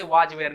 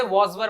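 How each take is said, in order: First: वाज वेयर, long aa with j, two-syllable वेयर; wrong pronunciation. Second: वॉज वर, rounded aw, short wur; correct pronunciation. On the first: Teacher warning learners, wrong pronunciation of वाज वेयर. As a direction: say WAS and WERE as वाज वेयर, lower. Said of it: "उसे वाज वेयर नहीं करेंगे". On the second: Teacher advising learners, correct pronunciation of वॉज वर. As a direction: say WAS and WERE as वॉज वर. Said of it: "pronounce करा करिए". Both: Shown as a demonstration.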